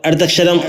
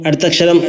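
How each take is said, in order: The two takes are said the same way.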